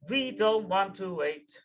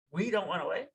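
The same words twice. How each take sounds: First: Slow, loud, stressed: "We don't want to wait"; emphatic demand. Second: Said in the usual way. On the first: Retold or imitated. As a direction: press each word of "We don't want to wait", slowly and firmly. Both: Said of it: "the next words that the Rebbe said".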